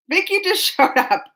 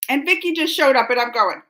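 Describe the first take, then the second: First: Amused repeat, a bit higher; laughing. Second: Said in the usual way. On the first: Real, not acted. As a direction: laugh in the middle.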